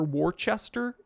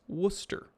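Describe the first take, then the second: First: The R sounds in the word are pronounced. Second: The R sounds in the word are dropped. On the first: The speaker is not from the town. The speaker calls it wrong. "If anybody pronounces it Worcester or Worcester, you know they're not from there" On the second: The speaker is native to the town. The speaker calls it right. "It's Worcester. ... they don't pronounce the R's very well"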